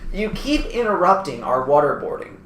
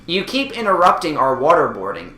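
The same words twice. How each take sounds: First: It is read slowly. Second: It is read at normal speed.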